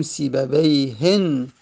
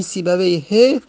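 First: سیبویهن drawn out slowly with a final -en; indefinite tanween. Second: Said in the usual way. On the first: Shown as a demonstration. Teacher making the name indefinite, سیبویهن with tanween -en. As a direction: slowly sound the n closing سیبویهن. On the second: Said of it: "معرفه است".

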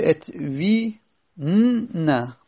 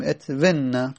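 First: "ات وی ن-، نه" in pieces, long i, separate n; two quiescents clashing. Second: "ات و نه" joined as etvenna, short e; ya dropped. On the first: Teacher shows the clash with ya, "ات وی ن-، نه" broken into pieces. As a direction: hold "وی", pause, then "ن-، نه". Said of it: "یعنی یا، یا ساکنه". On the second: Teacher gives the form after deleting ya, "ات و نه" joined with short e. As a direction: say "ات و نه" with short vowel into doubled n. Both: Shown as a demonstration.

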